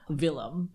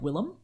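First: It starts with a hard V sound. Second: It starts with a soft, W-like sound. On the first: "with a very clear, hard V" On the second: "a softer sound closer to what sounds like a W to us"

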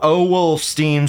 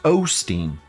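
First: The name is said with an L sound. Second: The name is said without an L sound. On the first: The speaker calls it wrong. "I want to say Joe Owlstein so badly" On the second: The speaker calls it right. "It's Osteen. No, there's no L in there"

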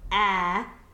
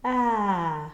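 First: The vowel sounds flat and hard. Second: The vowel sounds relaxed and buoyant. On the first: The speaker calls it wrong. "so that it's not flat and hard" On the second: The speaker calls it right. "but it has some buoyancy"

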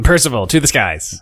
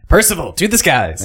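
First: It is said flatly, with little energy. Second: It is said with strong, proud energy. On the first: The speaker calls it wrong. "When you say it with no oomph" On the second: The speaker calls it right. "really relish it"

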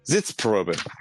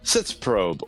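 First: The word is said with German pronunciation. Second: The word is said with English pronunciation. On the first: The speaker calls it right. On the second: The speaker calls it wrong.

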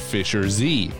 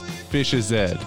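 First: It is said with an American accent. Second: It is said with a British accent. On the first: "we here in the U.S. would pronounce the name of Fisher Z as Fisher Z" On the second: "their specific dialect, they don't pronounce the R. So it's Fish's Head"

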